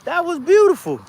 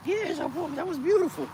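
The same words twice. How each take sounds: First: Much higher and far louder, nearly yelling; ecstatic shout. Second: Much higher, loud excited whoop; thrilled cheer. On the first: Cheering the dog's backflip again, a full ecstatic shout. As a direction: let it all out, even bigger. Dog does a flip, trainer thrilled. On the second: Cheering the dog's surprise flip, high and thrilled. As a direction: celebrate like you just won. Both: Real, not acted.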